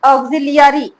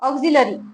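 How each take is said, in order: First: The middle 'li-ya' part is fully pronounced. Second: The middle 'li-ya' part is reduced and light. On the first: The speaker calls it wrong. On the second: The speaker calls it right.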